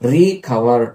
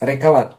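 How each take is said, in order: First: The word is broken after a long 're'. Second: The word is said smoothly as one unit. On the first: To cover something again. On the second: To get well again.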